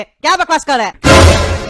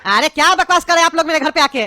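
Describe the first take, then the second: First: Louder, slow, each word drawn out in anger; slow angry outburst. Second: Said in the usual way. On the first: Acted. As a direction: hammer the question at the neighbours. Angry father repeats louder. (धीमा, ज़ोरदार गुस्से वाला सवाल)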